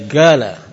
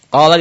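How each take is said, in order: First: The word begins with a g sound. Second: The word begins with a q sound. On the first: This is how the local spoken dialect says it. The speaker calls it wrong. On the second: This is the standard reading. The speaker calls it right.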